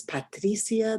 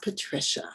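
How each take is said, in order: First: Patricia said pah-TREE-see-ah, with an S sound; mother's pronunciation. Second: Patricia said puh-TRISH-uh, with a SH sound; anglicized mispronunciation. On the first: Teacher showing a child's name, Patricia as pah-TREE-see-ah. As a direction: say Patricia in four syllables, stress on TREE. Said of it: "the way her mom says it". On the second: Teacher showing the wrong name, Patricia as puh-TRISH-uh. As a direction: say Patricia in three syllables, stress on TRISH. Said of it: "and not Patricia". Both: Shown as a demonstration.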